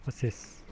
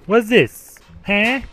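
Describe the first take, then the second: First: Very soft, under the voice; quiet aside. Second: Higher, much louder question; loud demand. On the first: Player asking themselves during the game, quiet aside. Puzzled aside, then called out. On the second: Player repeating the question to the game, loud demand. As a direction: burst out asking. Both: Real, not acted.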